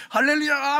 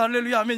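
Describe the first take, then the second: First: High, loud hallelujah cheer; overjoyed. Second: Moderately raised praise call; church praise. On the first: Elder cheering on the golf course, wildly overjoyed. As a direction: whoop it out in acted jubilation. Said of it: "골프장에서". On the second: Elder responding in church as he should, measured praise. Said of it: "교회에서". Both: Acted.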